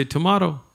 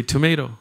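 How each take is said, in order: First: "tomato" with a broad ah, to-MAH-to; "tomato" pronounced tuh-MAH-toh, British style; tomato the other way. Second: "tomato" with a long ay, to-MAY-to; "tomato" pronounced tuh-MAY-toh, American style. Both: Shown as a demonstration. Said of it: "what is the correct pronunciation of the word tomato".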